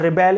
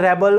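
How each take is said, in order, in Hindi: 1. Stress दूसरे अक्षर पर है। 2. स्ट्रेस पहले अक्षर पर है। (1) "एज अ वर्ब सेकंड पर था" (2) "as a noun first level पर स्ट्रेस था"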